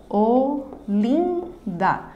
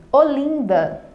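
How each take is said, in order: First: "Olinda" in three slow beats: o, lin, da; syllable by syllable. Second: Said in the usual way. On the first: Shown as a demonstration. Teacher separating a word for students, syllable by syllable. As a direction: pause after each syllable of "Olinda". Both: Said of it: "Na separação silábica".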